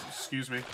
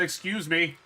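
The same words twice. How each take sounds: First: Said in the usual way. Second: "Excuse me" repeated louder and higher, pointedly; firmer excuse me. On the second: Real, not acted. Streamer repeating it to a blocking character, louder. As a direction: insist on "Excuse me", pushing the "me". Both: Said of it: "I said".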